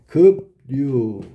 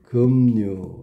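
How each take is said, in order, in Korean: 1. p와 r 소리로 나요. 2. m과 n 소리로 나요.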